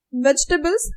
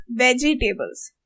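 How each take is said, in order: First: "Vegetables" as VEJ-tuh-bulz, middle vowel dropped; English-style stress. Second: "vegetables" as VEJ-ee-TAY-bulz; every syllable pronounced. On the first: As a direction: squeeze "Vegetables" into three syllables, stress first. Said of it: "It's the first ones". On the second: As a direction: give "vegetables" four syllables with a full TAY. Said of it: "someone who will say vegetable". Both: Shown as a demonstration.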